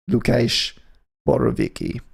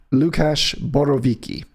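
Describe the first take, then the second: First: the guitarist's name said in a hammed-up Polish accent, Lu-KAYSH; mock Polish accent. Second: Said in the usual way. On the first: Shown as a demonstration. DJ naming the Polish guitarist, in a jokey Polish accent. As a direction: lean into a cheesy Polish accent on the name. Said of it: "With a slightly offensive accent". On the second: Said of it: "That's how I'm gonna say that".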